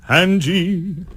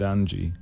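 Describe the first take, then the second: First: Loud, high sung British accent; very strong British accent. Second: Said in the usual way. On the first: Shown as a demonstration. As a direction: belt it out in an overdone British accent. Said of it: "with a very strong British accent". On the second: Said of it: "pronounce the word Angie".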